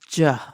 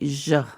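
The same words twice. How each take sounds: First: The sound is a firmer j sound. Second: The sound is soft and mushy, like zh. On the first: "the Caribbean accent is j" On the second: "the Argentinian accent has uh, the double L and the Y sounds are very uh, soft and mushy sounding"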